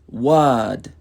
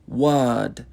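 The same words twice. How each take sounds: The two takes are said the same way.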